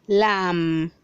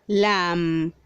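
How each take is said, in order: No difference in how they are said.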